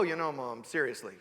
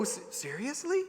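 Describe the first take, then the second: First: Low, deadpan aside with a falling end; mock jaded child. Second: Softly incredulous, rising question; mock innocent disbelief. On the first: Child addressing Mom as no child would, mock deadpan. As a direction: imitate a kid talking like a weary grown-up. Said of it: "a child doesn't go". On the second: Child questioning the power of a piece of paper, mildly incredulous. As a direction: ask it like a kid who can't believe it. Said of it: "You know, like, to go".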